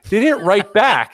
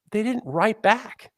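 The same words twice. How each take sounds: First: Louder dramatic repeat. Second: Slow dramatic pause. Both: Real, not acted. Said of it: "repeat for dramatic effect".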